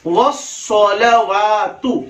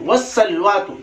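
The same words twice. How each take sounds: First: "वस्सलवातु" very slow, as "was-sa-la-waa-tu"; slow, careful demo of "वस्सलवातु"; correct pronunciation. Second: "वस्सलवातु" shortened to "was-salwatu"; everyday "वस्सलवातु" with l and w run together; wrong pronunciation. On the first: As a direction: stretch every vowel of "वस्सलवातु", rounded s. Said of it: "सही तलफ्फुज क्या है?". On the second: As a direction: squeeze the middle of "वस्सलवातु", losing a vowel. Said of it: "गलत।". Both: Shown as a demonstration.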